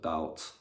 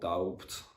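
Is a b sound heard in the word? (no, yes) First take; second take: no; yes. First: No b sound is pronounced before the t. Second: A b sound is pronounced before the t. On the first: The speaker calls it right. "instead of doubt" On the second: The speaker calls it wrong. "silent letters"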